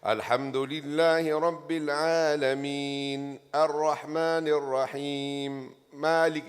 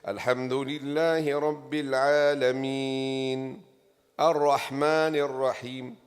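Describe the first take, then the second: First: The sound breaks without any breath taken. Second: The sound stops and a breath is taken.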